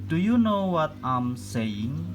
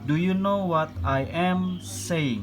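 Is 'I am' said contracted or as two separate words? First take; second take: contracted; separate. First: I am is joined into one short syllable. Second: I and am are said as separate words. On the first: "Ini am ya dibacanya" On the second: "Boleh juga misalkan dipisah ya"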